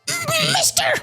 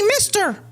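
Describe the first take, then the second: First: It is said in a dark, sinister voice. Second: It is said in a squeaky cartoon-toad voice. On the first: "they didn't sound that sinister either" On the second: "that also sounded like Toad"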